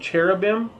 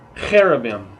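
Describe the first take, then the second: First: The word starts with a ch sound. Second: The word starts with a throaty kh sound. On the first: The speaker calls it wrong. "you may have seen hate written C H, like in cherubim" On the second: The speaker calls it right. "but it's actually cherubim"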